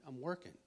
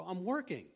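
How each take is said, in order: First: Said in the usual way. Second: Higher and louder, fed up; exasperated protest. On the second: Retold or imitated. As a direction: push back on the nagging friend. Friend keeps pressing him.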